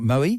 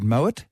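First: The final T sound is left silent. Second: The final T sound is pronounced. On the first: The speaker calls it wrong. "not Moët" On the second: The speaker calls it right. "notice I said Moët, ... you pronounce the T"

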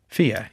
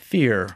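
First: The final R is silent, Australian style. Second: The final R is clearly pronounced, rhotic style.

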